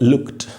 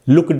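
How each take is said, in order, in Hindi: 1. शब्द का अंत t ध्वनि से होता है। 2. शब्द का अंत d ध्वनि से होता है। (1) "एंड में आपको टी दिखाई दे रहा है, तो इसको पढ़ेंगे लुक्ड" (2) "नहीं बोलेंगे"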